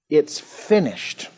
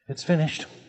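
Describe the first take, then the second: First: It sounds triumphant and victorious. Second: It sounds defeated and resigned.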